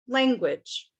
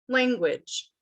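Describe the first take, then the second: Both takes have the same delivery.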